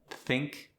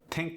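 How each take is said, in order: First: The word begins with a TH sound. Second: The word begins with a plain T.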